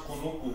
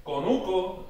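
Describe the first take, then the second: First: "kunuku" with every O turned to U; original ancestral pronunciation. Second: "conuco" with clear O vowels; modern Spanish pronunciation. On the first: Teacher showing how ancestors said conuco, original pronunciation with U. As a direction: say "kunuku" with oo vowels throughout. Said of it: "originally was pronounced kunuku". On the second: Teacher contrasting old and new word forms, modern Spanish pronunciation. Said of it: "the word conuco originally was pronounced". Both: Shown as a demonstration.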